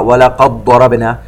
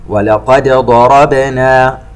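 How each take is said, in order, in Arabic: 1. الدال تُدغم في الصوت الذي بعدها. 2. تُنطق الدال بوضوح مع قلقلة. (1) "ولا نقرأ" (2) "نظهر الدال ونقلقلها ولا نضغمها"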